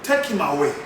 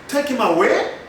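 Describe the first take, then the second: First: "Take him away" as a command, dropping at the end; falling tone. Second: "Take him away" rising like a question; wrong rising tone. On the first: Teacher corrects for students, "Take him away" with falling tone. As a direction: let "away" fall low. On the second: Teacher shows what not to say, "Take him away" with rising tone. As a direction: lift "away" sharply at the end, as if asking. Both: Shown as a demonstration. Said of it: "You don't say".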